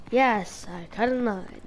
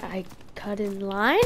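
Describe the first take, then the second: First: "Yes, I cut in line" falling as a statement; statement, not question. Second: "I cut in line" rising on "line" like a question; slow, soft, unsure rise on "line". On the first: Kid corrected by teacher admits it, as a falling statement. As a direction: give in, "line" dropping at the end. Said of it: "No, it's not a question". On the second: Kid answers the lunchroom teacher with a question, questioning. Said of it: "I kinda said it with a question". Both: Retold or imitated.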